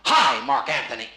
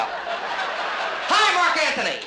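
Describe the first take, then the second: First: Slow, loud theatrical hail; declaimed, drawn-out hello; stage greeting demo. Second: Very high, loud hail; hammed-up shrieked hello; over-the-top stage greeting. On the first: Shown as a demonstration. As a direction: demonstrate a grand stage greeting. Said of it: "I'm gonna say to you". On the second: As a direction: belt out the greeting far too high. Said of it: "Okay, let's go".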